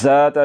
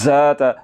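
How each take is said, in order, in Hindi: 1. पहले व्यंजन में सीटी जैसी आवाज़ है। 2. पहले व्यंजन में सीटी जैसी आवाज़ है।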